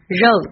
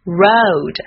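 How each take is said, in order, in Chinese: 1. 这个 r 是汉语的声母 r 音。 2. 这个 r 是英语的 r 音。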